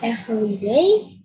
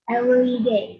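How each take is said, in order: First: The v sound in 'every' is a real v. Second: The v sound in 'every' is replaced by w. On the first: The speaker calls it right. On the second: The speaker calls it wrong. "jadi V ini diganti sama mereka pakai W"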